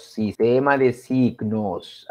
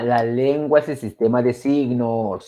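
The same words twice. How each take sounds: First: Slow repetition. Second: Said in the usual way. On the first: Shown as a demonstration.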